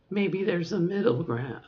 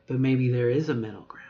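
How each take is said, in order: First: Raised voice. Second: Dropped voice. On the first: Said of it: "talk like this". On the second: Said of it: "hear my voice drop". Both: Shown as a demonstration.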